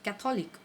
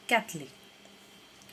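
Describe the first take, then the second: First: The middle 'o' vowel is clearly pronounced. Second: The middle 'o' vowel is dropped. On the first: The speaker calls it wrong. "क्या कहेंगे हम इसे" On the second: The speaker calls it right. "इसका सही pronouncing यहाँ पर दिया गया है"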